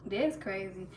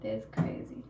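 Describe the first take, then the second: First: Said in the usual way. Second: Breathless whisper of disbelief. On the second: Real, not acted. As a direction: whisper it, too stunned to speak up. Stunned by comment on live.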